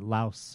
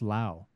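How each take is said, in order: First: The word ends with an S sound. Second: The word ends without an S sound. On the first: The speaker calls it wrong. "we've been saying Laos all this time" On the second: The speaker calls it right. "Apparently it's just pronounced Lao. You don't pronounce the S"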